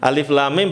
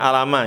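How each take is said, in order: First: Each letter is named separately by its full name. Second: The letters are blended together into short syllables. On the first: The speaker calls it right. "bukan alama" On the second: The speaker calls it wrong. "bukan alama"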